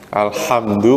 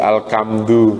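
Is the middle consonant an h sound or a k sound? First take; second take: h sound; k sound. First: The middle consonant is a breathy h sound. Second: The middle consonant is a hard k sound. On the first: The speaker calls it right. "ngucapin ha berubah jadi ka" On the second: The speaker calls it wrong. "Alhamdu menjadi alkamdu"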